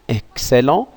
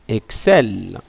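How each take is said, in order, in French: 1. Le mot se termine par une voyelle nasale. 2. Le mot se termine par le son L. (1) "E N T se prononce" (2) "il se prononce d'une manière différente"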